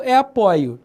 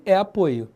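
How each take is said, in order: First: Apoio with an open O, as in "pó"; stressed open O in apoio. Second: Apoio with a closed O, as in "boi"; stressed closed O in apoio. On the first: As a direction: say apoio as the verb, O wide open. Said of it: "Se for um verbo". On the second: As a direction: say apoio as the noun, O rounded and closed. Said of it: "Se for um substantivo". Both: Shown as a demonstration.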